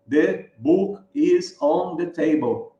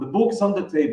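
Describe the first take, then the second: First: Each word is said separately, in a choppy way. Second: The words run smoothly together, linked. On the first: The speaker calls it wrong. "a gente fala no solavanco" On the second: The speaker calls it right. "fazer a ligação"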